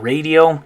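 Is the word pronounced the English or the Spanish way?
English. It is said with an English pronunciation. The speaker calls it wrong. "So instead of radio"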